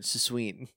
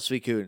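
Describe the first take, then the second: First: The name is said as sa-sween. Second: The name is said as swee-koon. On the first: The speaker calls it wrong. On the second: The speaker calls it right.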